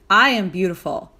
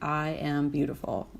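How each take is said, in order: First: It is said with energy and confident conviction. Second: It is said flatly, without energy or conviction. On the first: The speaker believes it and feels empowered. The speaker calls it right. "versus like" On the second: The speaker does not really believe it. The speaker calls it wrong. "if you're sitting there like"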